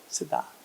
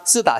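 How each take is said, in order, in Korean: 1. 입술을 붙이고 여리게 시작해요. 된소리가 아니에요. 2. 된 s 소리로 세게 시작해요. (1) "입술을 붙여야 돼... 약하게 나오지" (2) "뒷소리를 된소리로 발음하는 겁니다"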